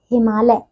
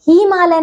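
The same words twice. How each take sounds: First: हिमालय with a short "hi", pitched low; correct pronunciation. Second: हिमालय with a long "hee"; mispronunciation. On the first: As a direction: keep the start of हिमालय short. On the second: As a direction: stretch the first vowel of हिमालय. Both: Shown as a demonstration. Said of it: "हिमालय नहीं".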